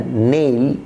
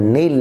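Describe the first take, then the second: First: "নেইল" as long "neil"; corrected "নেইল". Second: "নেইল" as short "nel"; wrong "নেইল". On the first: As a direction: glide from e to i in "নেইল". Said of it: "উচ্চারণ হবে এইল". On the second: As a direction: say "নেইল" with a plain e, no glide. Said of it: "যেমন নেইল না". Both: Shown as a demonstration.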